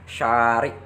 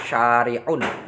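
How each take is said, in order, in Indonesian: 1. Kata ini berhenti lebih awal, tanpa vokal akhir. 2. Kata ini berakhir dengan akhiran '-un' penuh. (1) "huruf akhirnya diwakafkan, maka menjadi syari'" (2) "kalau dibaca lengkap berarti syari'un"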